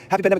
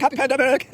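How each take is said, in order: First: High, loud happy call; raised, exuberant greeting; cheering. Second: Very high, stretched-out mock cheer; piercingly high whooping reply; imitated crowd shout. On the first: Retold or imitated. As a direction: call it out as a rallying cry. Calling it out to the friends. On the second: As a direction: holler it back like a whole gang. Imitating the whole group shouting back.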